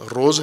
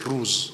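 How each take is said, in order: First: The vowel sounds like a long 'oh'. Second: The vowel sounds like a long 'oo'. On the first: This is the Indian way of saying it. "रोज़ का हिंदी तलफ़ुज़ रोज़ है" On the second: This is the Persian way of saying it. "रोज़ का फ़ारसी तलफ़ुज़ रूज़ है"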